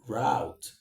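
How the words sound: It is said with an American pronunciation. "if you want to speak the American English, you go for route"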